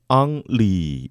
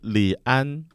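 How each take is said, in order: First: The name begins with 'ang': Ang-ri. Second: The name begins with an r/l sound: Ri-an. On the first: This is the English reading of the name. "영어 발음으로 읽으면 음, 앙리" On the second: This is the Chinese reading of the name. "중국어 발음은 리안"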